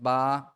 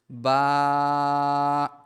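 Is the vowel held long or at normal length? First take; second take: normal; long. First: The vowel is held for a normal length. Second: The vowel is stretched out extra long. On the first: "It's just ba" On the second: "So three length"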